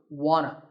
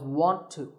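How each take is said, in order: First: The words blend into one reduced form. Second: The words are said fully and separately. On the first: "number two, wanna" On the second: "This is a reduction of want to"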